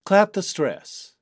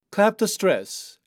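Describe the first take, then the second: No difference in how they are said.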